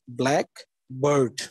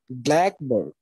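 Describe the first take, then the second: First: Both parts carry their own stress. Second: Only the first part carries stress. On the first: "in noun phrase, we have to put two stresses" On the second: It names one kind of bird. "when it will become a compound, we have only one accent in the first syllable"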